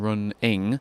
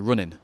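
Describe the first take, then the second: First: The final g sound is fully pronounced. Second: The final g sound is dropped. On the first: "instead of saying" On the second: "dropping the G"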